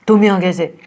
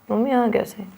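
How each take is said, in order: First: It is said in an angry tone. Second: It is said in a sad tone.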